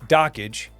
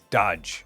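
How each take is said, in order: First: The name has two syllables, like dock-age. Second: The name has one syllable, like dodge. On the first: This is how most people say it. "people pronounce it Dockage" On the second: This is how its creator meant it to be said. "he meant for it to be pronounced as Dodge"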